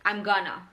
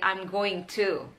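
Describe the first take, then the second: First: The words are run together quickly. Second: Each word is said fully and separately.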